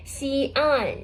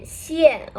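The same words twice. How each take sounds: First: "xi, an" said as two distinct level syllables; teacher breaking down "xi, an"; separated pinyin parts. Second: "xian" as one blended syllable with falling pitch; teacher's falling-tone model of "xian"; fourth tone. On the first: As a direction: keep "xi" and "an" apart. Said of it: "with the fourth tone". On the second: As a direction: run "xian" together and let it drop. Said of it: "Okay, with the fourth tone". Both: Shown as a demonstration.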